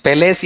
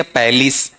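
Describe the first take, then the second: First: "पैलेस" as pe-LAYS, heavy second syllable; wrong palace pronunciation. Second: "पैलेस" as PAL-is, light second syllable; careful PAL-is for "पैलेस"; correct palace pronunciation. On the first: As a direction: say "पैलेस" with a long E at the end. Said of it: "ऐसा नहीं होना चाहिए". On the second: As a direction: say "पैलेस" with open A and short i. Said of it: "ये हल्की हल्की चीजें आनी चाहिए". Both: Shown as a demonstration.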